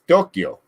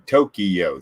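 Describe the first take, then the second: First: It is said the Japanese way, with fewer syllables. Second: It is said the American way, in three syllables. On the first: "Like it's Tokyo" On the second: "in America, we say Tokyo, three syllables"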